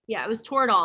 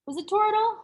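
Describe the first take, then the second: First: Said in the usual way. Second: Much higher, questioning Toradol; unsure question. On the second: Real, not acted. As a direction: ask it, unsure of the name. Unsure, asking about the drug name.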